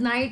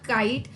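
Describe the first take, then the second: First: The word begins with an n sound. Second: The word begins with a k sound. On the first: The speaker calls it right. "It is नाइट only" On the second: The speaker calls it wrong. "मैं भी बचपन में इसको काइट pronounce करती थी but it was not काइट"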